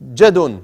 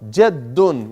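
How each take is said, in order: First: The d sound is short and quick. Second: The d sound is held long and doubled. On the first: The speaker calls it wrong. "So don't say jadun" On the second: The speaker calls it right. "You have to two seconds on the dal"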